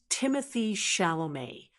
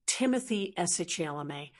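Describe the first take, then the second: First: "Timothée Chalamet" said "TIM-uh-thee SHAL-oh-may"; "Chalamet" smoothly as "shal-oh-may", after "Timothée"; correct pronunciation. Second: "S. Chalamet" misread as "ess-etch-ela-may"; misreading "Timothy S. Chalamet" with a hard "ch"; naive mispronunciation. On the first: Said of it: "So altogether, it's". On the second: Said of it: "you might just say". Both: Shown as a demonstration.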